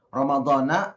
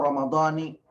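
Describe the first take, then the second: First: The word ends with an 'a' vowel. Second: The word ends with an 'i' vowel. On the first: "ada yang mempermasalahkan tentang harokat atau baris" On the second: "ada yang mengatakan"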